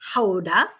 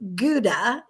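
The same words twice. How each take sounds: First: It is said with a native Dutch pronunciation. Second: It is said with a common English pronunciation. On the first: The speaker calls it right. "but really it's Gouda" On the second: The speaker calls it wrong. "which everyone pronounces as Gouda"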